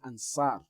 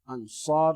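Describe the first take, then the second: First: The s is a light, plain sound. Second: The s is a heavy, emphatic sound. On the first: The speaker calls it wrong. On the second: The speaker calls it right. "Ansar with a sword as well"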